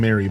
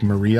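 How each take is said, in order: First: The name is said like Mary. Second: The name is said like Marie. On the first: The speaker calls it wrong. "I kept saying Mary" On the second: The speaker calls it right. "but it's like Marie, I guess"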